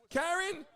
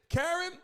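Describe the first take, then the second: No difference in how they are said.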